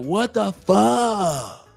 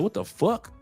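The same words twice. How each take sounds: First: The final k sound is dropped. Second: The final k sound is clearly pronounced. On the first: The speaker calls it wrong. "y'all ain't got no K on y'all shit" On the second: The speaker calls it right. "brothers be like"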